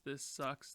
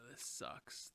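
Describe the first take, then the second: First: Said in the usual way. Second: Breathy whisper of defeat; whispered "This sucks"; whispered gripe. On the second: Real, not acted. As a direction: mutter it under your breath.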